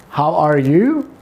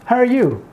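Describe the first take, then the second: First: "How are you?" slow with every word clear; full careful form. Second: "how are you?" clipped to "hə r you"; reduced how are you. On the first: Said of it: "How are you could be said". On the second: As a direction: squeeze "how are you?" into a quick run. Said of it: "how American pronounce in short form". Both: Shown as a demonstration.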